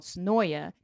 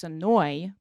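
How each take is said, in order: First: "Sonoya" with its final "ya" sounded; full pronunciation. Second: "Sonoy" with the last syllable dropped; native local pronunciation. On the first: Shown as a demonstration. Host naming the neighboring city, all syllables sounded. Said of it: "if you're a native of Sonoya". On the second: Retold or imitated. Host mimicking natives, slow and end-dropped. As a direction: stretch out "Sonoy", no final "ya". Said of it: "they say Sonoy".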